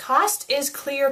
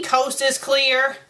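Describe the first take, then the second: First: "Cost" with a short open vowel, like the price; misspelling read literally. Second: "coast" with a long OH vowel; corrected word. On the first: Acted. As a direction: say "Cost", not like a seashore. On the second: Real, not acted. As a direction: say "coast" to rhyme with toast. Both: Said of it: "Don't you mean coast is clear?".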